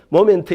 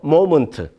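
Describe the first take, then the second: First: The second vowel sounds like 'eh'. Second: The second vowel sounds like 'uh'.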